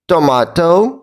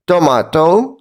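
The two takes are said the same way.

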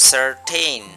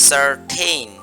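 Both takes have the same delivery.

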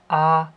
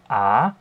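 First: The pitch stays high and level. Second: The pitch rises from mid to high. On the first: "Beim ersten Ton ... als wäre es ein konkreter fester Ton" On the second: "Beim zweiten Ton, das ist der steigende Ton"

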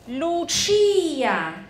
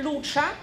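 First: The stress falls on the middle syllable. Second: The stress falls off the middle syllable. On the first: The speaker calls it right. "这个chi 是有注音是在chi" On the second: The speaker calls it wrong. "不是Lucia"

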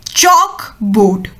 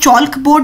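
First: The L in chalk is silent. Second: The L in chalk is pronounced. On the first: The speaker calls it right. "इसमें जो एल है वो silent है" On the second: The speaker calls it wrong. "हम चॉक board नहीं बोलोगे"

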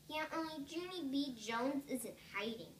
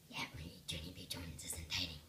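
First: It is said in a normal voice. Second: It is said in a scary voice.

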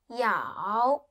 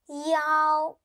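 First: It is said with the third tone. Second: It is said with the first tone.

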